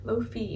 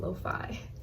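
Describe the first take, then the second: First: The vowel in 'fi' sounds like 'ee'. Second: The vowel in 'fi' sounds like 'eye'. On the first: "they like pronounce the I's like E" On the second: "but I guess it's lo-fi"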